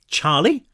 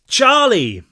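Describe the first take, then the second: First: The name is called quietly, choked. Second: The name is called out loudly.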